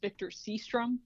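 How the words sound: The name is said with an American pronunciation. "sometimes known in the United States as"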